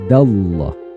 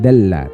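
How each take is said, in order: First: The L sound is thick and heavy. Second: The L sound is thin and light. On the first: The speaker calls it right. "dibaca tafhim atau tebal" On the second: The speaker calls it wrong. "Bukan dalla"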